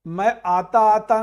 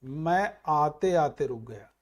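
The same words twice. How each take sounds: First: आता आता stressed and louder, marked as wrong; teacher rejecting आता आता loudly; wrong form flagged. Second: Slow, careful मैं आते आते रुक गया; teacher modelling the right आते आते slowly; correct form. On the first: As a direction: hit आता आता as the error. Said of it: "मैं आता आता नहीं". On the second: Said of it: "तो सही क्या हो गया". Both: Shown as a demonstration.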